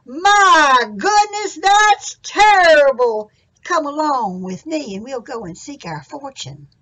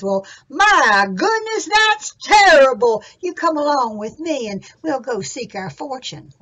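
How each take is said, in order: First: Very slow, high, loud my goodness; slower higher louder sing-along demo of Jack's line; Jack's dismay for the audience. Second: Jack's dismay. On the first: Shown as a demonstration. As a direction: lead the children in the big exclamation. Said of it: "go just like Jack did and say". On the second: Acted. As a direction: exclaim in big storybook dismay. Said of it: "hands on his hips".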